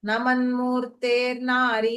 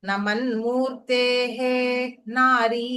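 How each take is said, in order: First: The words are run together with an r sound. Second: The words are said apart, ending in a breath sound. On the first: "சேதா" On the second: "சந்தி பிரிச்சு சொல்லும் போது"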